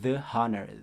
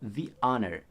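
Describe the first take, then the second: First: The word 'the' sounds like 'thuh'. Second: The word 'the' sounds like 'thee'. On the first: The speaker calls it wrong. "Jadi bukan the honor" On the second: The speaker calls it right. "tapi the honor"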